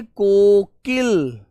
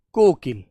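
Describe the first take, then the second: First: Kokil stretched very slowly, each sound held; drawn out for pupils. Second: Said in the usual way. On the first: Shown as a demonstration. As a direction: say Kokil very slowly so the children repeat it. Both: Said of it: "क्या बोलते हो प्यारे बच्चे?".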